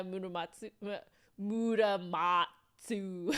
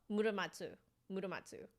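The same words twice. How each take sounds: First: Put-on Japanese name in a drawn-out American accent. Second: "Muramatsu" with every syllable evenly weighted, none punched; no syllable stress. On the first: Streamer mimicking Americans saying a name, American accent. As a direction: stretch the syllables like an American reading Japanese. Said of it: "like Americans saying". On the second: Shown as a demonstration. Trying out chat's correction, "Muramatsu" with no stressed syllable. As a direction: say "Muramatsu" quickly and evenly, Japanese-style. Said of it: "Japanese doesn't stress accents".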